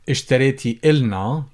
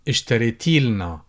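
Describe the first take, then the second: First: The vowel before 'l' is kept. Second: The vowel before 'l' is dropped.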